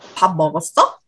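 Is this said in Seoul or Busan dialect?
Seoul. It is said in standard Seoul Korean.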